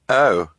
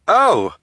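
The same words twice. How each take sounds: First: It is said with disappointment. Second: It is said with excitement.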